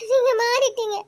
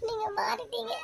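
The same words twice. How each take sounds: First: High, louder, breaking into a sob; sobbing. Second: High, choked and very soft; barely getting "மாறிட்டீங்க" out through tears; tearful. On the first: Wife accusing her husband, breaking into sobs. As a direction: cry out "நீங்க" with a sob. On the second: Wife hurt by her husband, softly tearful. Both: Acted. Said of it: "இப்போ எதுக்குடி அழுதுட்டு இருக்க?".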